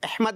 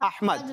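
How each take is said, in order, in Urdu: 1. پہلا حرف علت کھلی 'a' آواز نہیں ہے۔ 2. پہلا حرف علت کھلی 'a' آواز ہے۔ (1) "احمد نہیں" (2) "زبر آئے گا"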